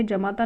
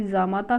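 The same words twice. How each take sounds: First: जमाता with short first a; incorrect form. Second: जामाता with long first aa; correct form. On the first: Teacher rejecting the misspelling, जमाता with short ja. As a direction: say जमाता as ja-maa-taa. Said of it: "जमाता नहीं होता है". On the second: Teacher giving the correction, जामाता with long jaa. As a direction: say जामाता as jaa-maa-taa. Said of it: "जामाता शुद्ध है". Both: Shown as a demonstration.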